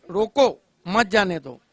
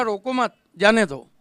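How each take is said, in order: First: "रोको", then a break, "मत जाने दो" as one phrase; pause after रोको. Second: "रोको मत" as one phrase, a break, then "जाने दो" louder; pause after मत. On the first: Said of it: "एक ही बात को दो बार". ("रोको" के बाद विराम, फिर "मत जाने दो" साथ में) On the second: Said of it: "मैंने ऐसे थोड़ी कहा था". ("रोको मत" साथ में, विराम, फिर "जाने दो") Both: Shown as a demonstration.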